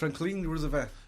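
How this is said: The name is said with a French accent. This is how the locals in France say the name. "como Franklin Roosevelt"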